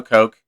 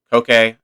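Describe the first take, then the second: First: "Coke" said like the soft drink; one-syllable Coke. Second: "Coke" said as KOH-kay; two-syllable Coke. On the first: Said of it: "pronounced like the soft drink". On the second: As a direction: say "Coke" with the final e sounded as "kay". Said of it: "Is it Coke or Coke?". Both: Shown as a demonstration.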